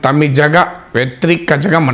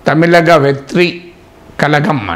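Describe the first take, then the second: First: The middle consonants sound like a retroflex ZH. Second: The middle consonants sound like a plain L. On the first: "కొన్ని చోట్ల pronunciation" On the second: "party పేరు కూడా ప్రకటించారు"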